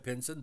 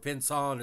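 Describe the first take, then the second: First: The name is pronounced in English. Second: The name is pronounced in French.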